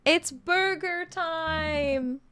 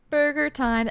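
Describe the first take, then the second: First: Excited announcement. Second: Said in the usual way. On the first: Acted. Dad announces burger time.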